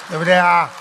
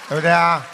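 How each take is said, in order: No difference in how they are said.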